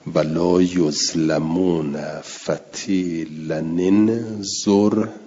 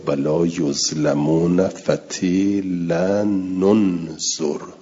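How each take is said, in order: First: The linking nun carries an i vowel. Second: The linking nun carries a u vowel. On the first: "حرک بالکسر" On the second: "حرک به ضم"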